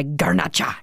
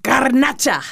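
First: Garnacha with Spanish vowels; Spanish pronunciation. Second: Garnacha said higher, Spanish style; Spanish pronunciation. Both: Shown as a demonstration. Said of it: "I love saying it like that".

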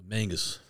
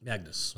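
First: "Mangus" with n before g, slip of the tongue; mispronounced Magnus. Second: "Magnus" with g before n, careful correction; corrected Magnus. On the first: Real, not acted. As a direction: say "Mangus", n and g swapped. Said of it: "You did say Mangus". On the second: Shown as a demonstration.

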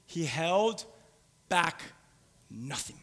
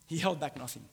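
First: "held", "back", "nothing" split by long pauses; word-by-word emphasis. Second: Said in the usual way. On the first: Real, not acted. Repeats the key phrase word by word.

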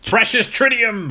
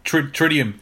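First: Higher, hammed-up gloating over the precious tritium; mock precious voice. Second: Said in the usual way. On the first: Cohost mock-gloats over the villain's precious tritium, hammed-up. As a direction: croon it like a treasure you covet. Mock-dramatic take on the element.

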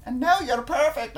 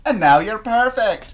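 First: Put-on much higher Scottish accent; Scottish accent pushed much higher, sweetly fussing. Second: Slow, laughing Scottish line; mock Scottish tenderness through a laugh; light Scottish accent, slow and laughing; Scottish boyfriend voice. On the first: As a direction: pitch the Scottish boyfriend up high. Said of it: "an octave higher". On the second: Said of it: "when we're wiping semen off ourselves".

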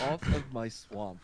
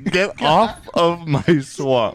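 First: Slow, drawn-out ogre line. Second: Slow, drawn-out ogre line, pitched up. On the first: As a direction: drag the words out like a lazy ogre. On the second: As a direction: stretch it slowly like a playful ogre. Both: Pretend.

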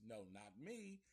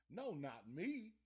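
First: Said in the usual way. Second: Slower, louder, every word leaned on; emphatic repeat. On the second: Shown as a demonstration. Telling the listener he would never do that, emphatic. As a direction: insist on it the second time.

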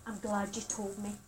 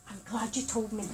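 First: Softer, lower counsellor voice; quiet textbook reassurance; trained reassuring line. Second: Soft, low, careful reassurance; quiet calm counsellor tone; counsellor reassurance to student. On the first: Shown as a demonstration. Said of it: "you're always taught ... you say". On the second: Retold or imitated. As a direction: gently soothe him as trained. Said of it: "So I say".

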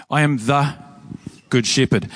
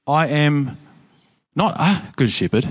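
First: "I am the good shepherd" with a pause after "the", then "good shepherd" falling firmly; stress on THE. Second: "I am not a good shepherd" with a stressed "a", pointedly wrong. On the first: Preacher showing the congregation the claim in "the", stressed and paused. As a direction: hold a beat after "the" before "good shepherd". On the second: Preacher contrasting a with the before the congregation, stressed. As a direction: lean on "a" in "not a good shepherd", then pause. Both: Shown as a demonstration. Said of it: "That's the thing that makes it confrontational".

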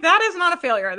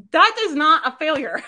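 First: "That is not a failure." louder and higher, leaning on "That"; firm insistence. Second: Louder and higher, laughing through it; laughing disbelief. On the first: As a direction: punch "That" and land it firmly. Repeats the line with force. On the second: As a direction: laugh while insisting on "That is not a failure.". Laughing at a client's success. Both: Real, not acted.

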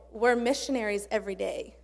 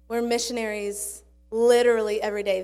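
First: Said in the usual way. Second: "We're missionaries literally every day" said louder after a long pause, leaning on "literally"; emphatic restatement. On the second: Shown as a demonstration. Preacher driving the point home to the church, emphatic.

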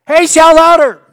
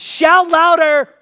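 First: High, full-volume taunting yell; even louder mocking shout. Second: Loud, slow, high taunting shout; mocking shout. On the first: Elijah taunting the prophets of Baal, full-volume yell. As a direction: yell it as loud as you can to mock them. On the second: Elijah taunting the prophets of Baal, slow booming shout. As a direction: bellow it slowly to mock their god. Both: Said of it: "he says".

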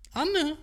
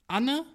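First: Anne? said high and then falling; pleased falling Anne; approving Anne. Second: Anne? asked with a high rising end; tentative rising Anne; questioning Anne. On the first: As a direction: savour the name, high start dropping down. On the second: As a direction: try the name out as a question, pitch climbing. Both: Shown as a demonstration. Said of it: "Ja, das geht".

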